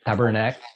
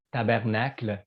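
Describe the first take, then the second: First: "tabernacle" cut short to end in "nak"; altered swear-word pronunciation. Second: "tabernacle" the French way, ending in "kl"; French "tabernacle", keeping the final L; real pronunciation. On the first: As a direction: say "tabernacle" as "tabarnak", dropping the final L. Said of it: "we say tabernacle". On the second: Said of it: "real pronunciation". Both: Shown as a demonstration.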